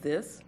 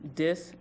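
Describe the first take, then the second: First: The word begins with a th sound. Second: The word begins with a d sound.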